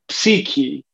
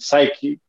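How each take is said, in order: First: The word is pronounced the Greek way. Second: The word is pronounced the English way. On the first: "the word in Greek is psyche" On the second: "anglicized, it comes out to being psyche"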